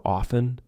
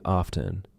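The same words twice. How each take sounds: First: OFTEN with no T, "offen"; silent T. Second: OFTEN with the T pronounced, "off-ten"; sounded T. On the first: Teacher showing a silent T word, OFTEN without the T. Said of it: "silent T". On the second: Teacher showing what she is not saying, OFTEN with T. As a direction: put a clear T in OFTEN. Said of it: "I'm not saying". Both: Shown as a demonstration.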